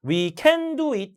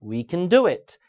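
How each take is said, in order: First: We CAN do it, full vowel on can; wrongly stressed can. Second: We can DO it, can reduced; stress on main verb. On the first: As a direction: lean on can as the mistake. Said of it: "이런 거". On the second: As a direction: skim can and hit do. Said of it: "조동사는 강세를 주면 안 되고". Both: Shown as a demonstration.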